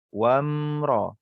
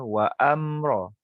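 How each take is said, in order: First: The word flows straight into the m sound. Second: An extra a vowel is said before the m. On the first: The speaker calls it right. "kita abaikan hamzah wasal ni" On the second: The speaker calls it wrong. "Kita tidak baca wa amra"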